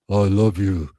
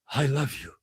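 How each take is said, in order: First: It is said in a much lower, deeper voice. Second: It is said in a normal voice.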